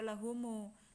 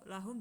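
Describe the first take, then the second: First: The word ends with an added u vowel. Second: The word ends on the consonant m.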